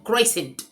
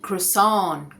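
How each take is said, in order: First: It is said with a middle 'i' and final 'sent'. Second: It is said as two syllables, ending in 'sahn'. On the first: The speaker calls it wrong. "ये गलत है उच्चारण" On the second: The speaker calls it right. "इसका सही उच्चारण है क्रोसान"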